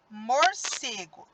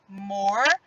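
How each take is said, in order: First: Said in the usual way. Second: "Morcego" broken into mor, ce, go with long pauses; syllable by syllable. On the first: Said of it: "vamos para a palavra morcego". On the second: Shown as a demonstration. Teacher showing pupils the new word, syllable by syllable. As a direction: sound out "Morcego" one syllable at a time. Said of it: "Vejam só".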